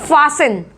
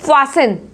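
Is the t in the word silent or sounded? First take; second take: silent; silent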